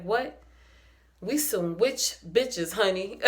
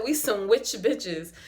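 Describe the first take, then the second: First: Slow, sassy drawl of the line; imitating Gigi. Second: Quoting Gigi. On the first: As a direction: deliver it like Gigi's proud boast. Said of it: "Let me see if I can say it like Gigi". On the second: Retold or imitated. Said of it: "Gigi said".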